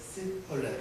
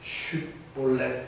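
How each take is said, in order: First: It begins with an s sound, like Ephraimites. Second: It begins with an sh sound, like other Jews.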